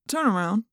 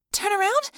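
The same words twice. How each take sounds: First: Said in the usual way. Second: Much higher squeaky echo of "Turn around?"; squeaky repeat. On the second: Acted. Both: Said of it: "I repeated in a squeaky voice".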